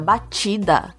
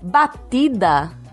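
First: The middle t is a soft ch-like sound. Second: The middle t is a plain, hard t.

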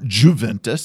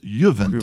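First: The word begins with an English J sound. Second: The word begins with a Y sound. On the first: The speaker calls it wrong. "it's not Juventus" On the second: The speaker calls it right. "you don't pronounce the J, like yodel. And also like in Italian"

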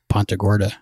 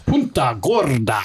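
First: It is said in a plain, casual speaking voice. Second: It is said in a booming announcer-style voice. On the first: This is how the locals say the name. "But we just call it" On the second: This is how a wrestling announcer says the name. "The WWE ring announcer always goes"

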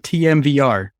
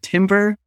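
First: It is said as four separate letters. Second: It is said as one word, like timber. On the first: "or TMVR?" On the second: "do you pronounce it timber"

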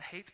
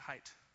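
First: The vowel rhymes with the word eight. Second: The vowel rhymes with the word night. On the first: "I've heard it pronounced the hate" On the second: "and the height. I'm going to go with height"

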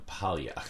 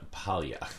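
First: The surname is said with Italian sounds. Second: The surname is said with Italian sounds.

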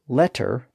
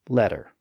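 First: The middle consonant is a clear T sound. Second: The middle consonant is a soft D-like tap. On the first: "the change of the T sound to a D sound in the middle of a word" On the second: "So letter becomes letter"

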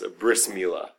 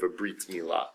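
First: The first word ends with an s sound. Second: The first word ends with a t sound.

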